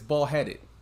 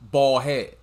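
First: The word ends with an audible -ed syllable. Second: The word ends without any -ed syllable. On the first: The speaker calls it wrong. "Me with the ED, it's ball-headed. But no" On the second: The speaker calls it right. "It's pronounced ball-head"

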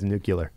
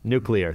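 First: It uses the popular everyday pronunciation. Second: It uses the standard pronunciation. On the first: This is the form most people use. "but everybody says nuclear" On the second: This is the correct form. "That's the proper way"

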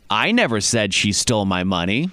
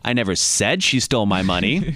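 First: The stress is on the word 'I'. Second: The stress is on the word 'said'.

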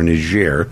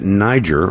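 First: The name is pronounced the local, French-style way. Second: The name is pronounced the usual English way.

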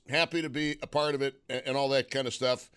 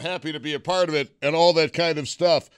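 First: The tone sounds flat and insincere. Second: The tone sounds warm and sincere. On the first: The speaker calls it wrong. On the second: The speaker calls it right.

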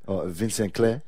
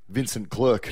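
First: The name is said with a French accent. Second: The name is said with an Australian accent. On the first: "that you were pronouncing before the show?" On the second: "But what are we in Australia? We pronounce call him"

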